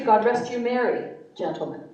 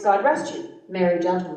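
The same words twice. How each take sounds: First: The pause falls before gentlemen. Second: The pause falls before merry.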